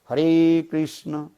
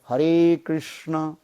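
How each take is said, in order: The two takes are said the same way.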